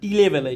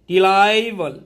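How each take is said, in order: First: The middle syllable has a short, weak vowel. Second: The middle syllable sounds like 'lie'. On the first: The speaker calls it right. "Actually উচ্চারণটা টি লেভেল" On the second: The speaker calls it wrong. "আমি একটু ভুল বলেছি"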